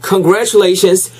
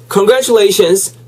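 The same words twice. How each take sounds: The two takes are said the same way.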